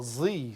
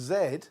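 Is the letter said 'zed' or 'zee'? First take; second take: zee; zed. First: The letter is said as American 'zee'. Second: The letter is said as British 'zed'.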